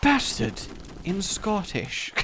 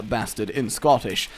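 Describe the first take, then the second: First: Slow, higher mock trailer title; pretentious film title. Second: Said in the usual way. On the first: Announcer naming a pretentious film, mock-grand. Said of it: "sounds like a really pretentious film". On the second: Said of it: "That sounds like a really pretentious film".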